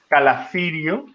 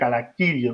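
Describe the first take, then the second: First: The c before i has a soft sound. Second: The c before i sounds like k. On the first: The speaker calls it wrong. "no sería Calacirio, como pronunciaríamos en español" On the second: The speaker calls it right. "todas las C se pronuncian como K"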